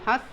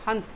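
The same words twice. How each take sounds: First: The vowel itself is softly nasalized. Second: A full n sound follows the vowel. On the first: The speaker calls it right. "मुख और नासिका दोनों से इसका उच्चारण होता है" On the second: The speaker calls it wrong. "Sorry"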